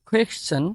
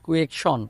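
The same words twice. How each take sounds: First: The first k sound has a strong puff of air. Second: The first k sound has no puff of air. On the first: The speaker calls it right. "বাংলা ক্ষয়ের মতো উচ্চারণ করতে হবে। তাহলে listen" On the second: The speaker calls it wrong. "কুয়েকশন এভাবে বলতাম"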